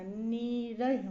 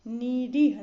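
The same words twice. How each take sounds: First: निरह with short RA, slowly; correct short A. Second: निरीह with long REE, louder; wrong long EE. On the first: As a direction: say निरह as "nee-rah". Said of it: "होता है". (निरह में "र", धीरे) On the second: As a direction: say निरीह as "ni-reeh". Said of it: "नहीं होता". (निरीह में लंबा "री") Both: Shown as a demonstration.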